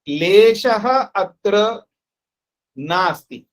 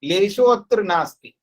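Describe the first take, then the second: First: The first word ends with a breathy ah. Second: The first word ends with an o vowel. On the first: "लेशः भी बोल सकता हूं" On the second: "लेशो भी बोलूं"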